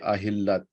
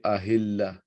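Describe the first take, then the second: First: The word ends with a t sound. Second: The word ends with an h sound. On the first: The speaker calls it wrong. "We don't say Ahillat" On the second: The speaker calls it right. "We say Ahilla"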